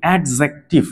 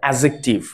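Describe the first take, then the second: First: A d sound is heard before the j. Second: No d sound is heard before the j. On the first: The speaker calls it wrong. "অনেকে আমরা উচ্চারণ করে থাকি অ্যাডজেক্টিভ। No, এটা একদম রং উচ্চারণ।" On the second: The speaker calls it right. "এটা হচ্ছে অ্যাজেক্টিভ।"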